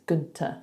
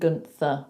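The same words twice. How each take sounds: First: The middle consonant is a plain t. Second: The middle consonant is a th sound. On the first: The speaker calls it right. "but it's Gunther" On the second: The speaker calls it wrong. "I called him Gunther with a T H"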